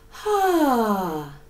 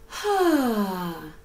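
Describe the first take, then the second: First: The vowel starts with a breathy h puff. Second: The vowel starts with a breathy h puff.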